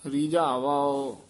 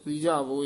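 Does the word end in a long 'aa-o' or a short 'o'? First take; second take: long aa-o; short o. First: The word ends in a long aa followed by o. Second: The word ends in a single short o sound. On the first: The speaker calls it right. "ਇਸ ਤਰ੍ਹਾਂ ਉਚਾਰਨ ਕਰਨੇ ਹੈ" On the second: The speaker calls it wrong. "ਇਸ ਤਰ੍ਹਾਂ ਨਹੀਂ ਬੋਲਣਾ"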